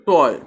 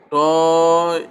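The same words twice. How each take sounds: First: Said in the usual way. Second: "টয়" stretched out slowly as if breaking it apart; artificially broken up. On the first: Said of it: "এভাবে ভেঙে উচ্চারণ করা যায় না". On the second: Shown as a demonstration. Teacher shows how not to divide it, "টয়" slowly pulled apart. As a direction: drag the vowel of "টয়" out long. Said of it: "এভাবে ভেঙে".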